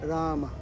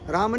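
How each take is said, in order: First: The word is said fully and drawn out. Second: The word is said short and clipped. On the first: The speaker calls it right. "मैं पूरा बोल" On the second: The speaker calls it wrong. "राम नहीं"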